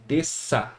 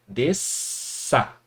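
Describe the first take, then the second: First: Said in the usual way. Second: "Desça" in two parts, S held then a pause; split into syllables. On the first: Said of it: "apenas o som do S". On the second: Shown as a demonstration. Teacher showing where the word divides, syllable by syllable. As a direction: break "Desça" as des, then ça. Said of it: "Vai ficar dessa forma".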